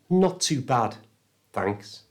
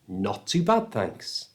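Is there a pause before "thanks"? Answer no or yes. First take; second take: yes; no. First: There is a pause before "thanks". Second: "Thanks" follows "bad" with no pause. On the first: The speaker calls it wrong. "It can't be not too bad, thanks. That sounds awkward" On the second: The speaker calls it right. "thanks has to go right after the bad"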